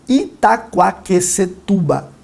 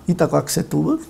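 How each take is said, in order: First: Each syllable is clearly and fully articulated. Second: The syllables are slurred with little mouth movement. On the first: The speaker calls it right. "veja como eu articulo a minha boca" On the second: The speaker calls it wrong. "É diferente de eu falar"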